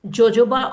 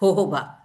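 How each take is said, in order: First: The word starts with a J sound. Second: The word starts with an H sound. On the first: The speaker calls it wrong. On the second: The speaker calls it right.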